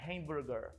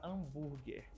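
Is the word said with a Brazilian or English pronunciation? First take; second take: English; Brazilian. First: It is said with an English pronunciation. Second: It is said with a Brazilian Portuguese pronunciation. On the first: "a pronúncia correta lá fora é hamburger" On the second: "Essa é a nossa pronúncia aqui no Brasil"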